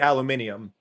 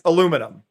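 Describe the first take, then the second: First: It is said the British way. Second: It is said the non-British way. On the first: The speaker calls it wrong. "in the U K, it has been normalized to be aluminium" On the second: The speaker calls it right. "the correct way to say it is aluminum"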